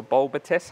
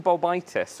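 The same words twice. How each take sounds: First: "bulbitis" with a short middle vowel; "bulbitis", front-stressed with a quick middle syllable; alternative pronunciation. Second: "bulbitis" with a long "bye" in the middle; "bulbitis", middle syllable rhyming with "eye"; first pronunciation variant. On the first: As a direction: say "bulbitis" as BUL-bi-tis. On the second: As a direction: say "bulbitis" as bul-BYE-tis. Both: Shown as a demonstration. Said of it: "however you want to say it".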